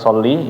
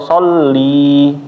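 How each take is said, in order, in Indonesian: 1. Vokal terakhirnya pendek. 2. Vokal terakhirnya panjang. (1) "dari kata soli ya, maka sholatlah" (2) "nah itu jadi linya milik saya"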